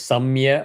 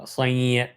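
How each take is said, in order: First: A full m sound comes before the ya. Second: A nasalized vowel comes before the ya. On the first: The speaker calls it wrong. "is not chanted as Samya" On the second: The speaker calls it right. "It will be chanted as Sanya, Anunasika"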